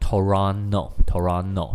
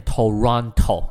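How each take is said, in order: First: Toronto with the second T dropped, Toronno; local Toronto. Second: Toronto with every T clearly said; full Toronto. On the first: Teacher showing the local Canadian way to say Toronto. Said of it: "加拿大人本地呢，会念的叫做". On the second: Teacher showing how outsiders say Toronto, all Ts clear. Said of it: "很多人会念Toronto". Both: Shown as a demonstration.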